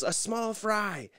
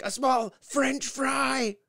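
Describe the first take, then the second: First: Higher, slow patient mock repeat; imitating Nikki. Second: Much higher, louder, very slow sarcastic question; milk the disbelief; mock cashier. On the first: Wife repeats her fry order, mock-high and slow. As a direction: say it again slowly and plainly. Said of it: "so Nikki goes". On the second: Cashier mocks the fry order, slow and sarcastic. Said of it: "And she's like".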